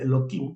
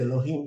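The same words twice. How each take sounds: First: The middle consonant is a K sound. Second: The middle consonant is an H sound. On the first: "se dice Elohim con K" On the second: "no se dice Elohim"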